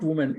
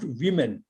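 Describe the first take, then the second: First: "woman" said with WUU in the first syllable; "woman" with a rounded oo vowel, as in wood; singular pronunciation. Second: "women" said as WIM-in; teacher's model of "women", first vowel as in win; plural pronunciation. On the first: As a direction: say "woman" as WUU-mun, the wrong form for the plural. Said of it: "not woman. It is pronounced women". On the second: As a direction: say "women" with a short i in the first syllable. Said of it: "It is pronounced women". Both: Shown as a demonstration.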